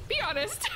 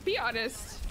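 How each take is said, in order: First: Laughing. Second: Said in the usual way. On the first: Real, not acted. Asks team twice, second laughing.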